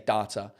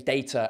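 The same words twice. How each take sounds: First: It is said in an American accent. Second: It is said in an English accent. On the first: "Americans say data" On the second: "we say data"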